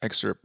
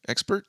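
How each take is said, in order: First: Said in the usual way. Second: "Expert" with a P sound in place of the S, as a question; mispronounced excerpt. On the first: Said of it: "What did I say?". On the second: Shown as a demonstration. Reader checking his own slip with the co-host, mispronounced "Expert". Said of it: "Did I say expert?".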